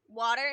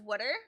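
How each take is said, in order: First: It is said in the speaker's usual accent. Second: It is said in a different regional accent. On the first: This is how the speaker says it. "I say water" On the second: This is how the speaker's mother says it. "she says water"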